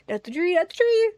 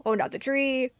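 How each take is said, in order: First: Higher and louder, pleading; beg, alarmed, for the tree. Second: Said in the usual way. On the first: Real, not acted.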